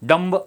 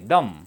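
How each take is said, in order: First: The final b sound is pronounced. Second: The final b sound is silent. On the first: The speaker calls it wrong. "डंब असं नाही" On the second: The speaker calls it right. "बी silent आहे"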